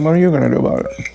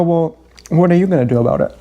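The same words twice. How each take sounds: First: Faster shrugging take. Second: Quick shrugging comeback; a brisk, dismissive question; flippant retort. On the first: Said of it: "Kind of". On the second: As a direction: toss it off fast and careless. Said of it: "I go". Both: Retold or imitated.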